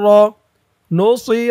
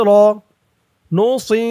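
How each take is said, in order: The two takes are said the same way.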